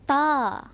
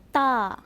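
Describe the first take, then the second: The two takes are said the same way.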